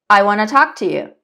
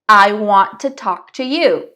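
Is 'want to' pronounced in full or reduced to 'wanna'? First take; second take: reduced; full. First: 'Want to' is run together as 'wanna'. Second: Each word of 'want to' is said separately. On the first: "la pronunciación más nativa acortada" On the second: "La pronunciación perfecta, ultra clara"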